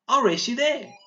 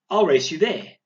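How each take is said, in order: First: Put-on high, loud excited shout of a racing girl. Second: Eager call. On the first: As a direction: call it out like a challenge to race. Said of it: "She's shouting this out". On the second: Teacher reads example of girl racing. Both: Shown as a demonstration.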